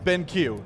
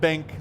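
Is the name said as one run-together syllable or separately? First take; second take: separately; run together. First: The name is said as two separate syllables. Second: The name is run together into one syllable. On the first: The speaker calls it right. "like in I Q" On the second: The speaker calls it wrong. "like you run it all together"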